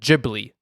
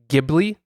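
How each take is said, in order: First: It is said with the studio founder's pronunciation. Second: It is said with the original Italian pronunciation. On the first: It refers to the animation studio. "Miyazaki himself pronounces it" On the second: It refers to the original Italian word. "based on some Italian word"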